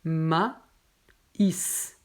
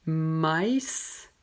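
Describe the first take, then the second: First: "maïs" split slowly into ma-ïs; correct maïs. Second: "maïs" run together as one syllable, "mais"; wrong maïs. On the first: Teacher showing students how to split "maïs". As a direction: slowly separate both vowels of "maïs". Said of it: "mais on prononce maïs". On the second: Teacher showing the wrong reading of "maïs". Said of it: "on ne prononce pas maïs". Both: Shown as a demonstration.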